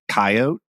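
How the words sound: It uses the Idaho regional pronunciation. This is how people in Idaho say it. "I say coyote"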